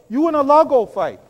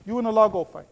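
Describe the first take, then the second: First: Louder taunt telling Musa to fight alone; mock defiant retort. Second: Said in the usual way. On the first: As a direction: fling the words back at the prophet. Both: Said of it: "They told Musa".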